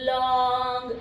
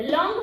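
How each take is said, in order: First: long stretched long and slow; drawn-out word. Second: Quick, short long, higher and louder; said in one go. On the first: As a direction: drag out the vowel in long. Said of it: "ऐसा आप नहीं बोलोगे". (Long को खींचकर बोलना) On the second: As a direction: say long as one fast syllable. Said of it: "फटाक से बोलते हैं". (लॉन्ग फटाक से, एक झटके में) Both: Shown as a demonstration.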